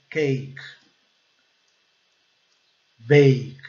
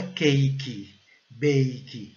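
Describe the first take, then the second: First: CAKE and BAKE ending on K, no vowel after; crisp final K. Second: CAKE and BAKE ending in an extra "ee": "cakey, bakey"; Brazilian-style CAKE and BAKE with a vowel tacked on; added final vowel. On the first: Teacher giving learners the correct model, no added final vowel. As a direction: stop CAKE and BAKE dead on the K. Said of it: "não". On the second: Teacher showing learners what to avoid, extra final "ee". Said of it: "Não fala cake". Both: Shown as a demonstration.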